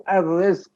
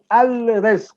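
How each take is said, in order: First: "al-rizq" as ar-rizq, L silent; assimilated article in "al-rizq", no L heard; L dropped. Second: "al-rizq" with the L fully pronounced; unassimilated L in "al-rizq"; L sounded. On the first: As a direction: say "al-rizq" with the L merged into a long R. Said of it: "missing the L". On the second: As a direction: say "al-rizq" with a distinct L before the R. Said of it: "we don't say al-rizq". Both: Shown as a demonstration.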